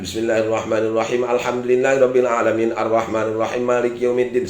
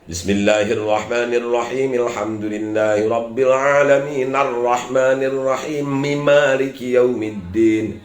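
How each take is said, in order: First: The verses are rushed without careful recitation rules. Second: The verses are linked carefully following recitation rules. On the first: The speaker calls it wrong. "Salah itu" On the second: The speaker calls it right. "Kalau wasal ya wasalkan. ... Gitu ya"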